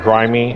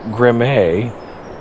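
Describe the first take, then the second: First: The name is said plainly, like grimy. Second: The name is said in a posh, refined way. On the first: "Is it grimy?" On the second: "if maybe you're a little snooty"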